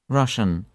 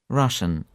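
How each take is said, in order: The two takes are said the same way.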